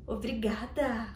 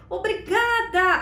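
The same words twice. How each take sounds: First: Quiet, slow, simple thanks; just say it softly and stop there; a soft, unfussy thank you. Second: Higher, louder, slow, beaming thanks; a bright, grateful thank you; smiling thank you. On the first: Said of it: "você fala". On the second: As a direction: smile right through the word. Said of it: "Sorria pra pessoa que te elogiou e agradeça". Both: Shown as a demonstration.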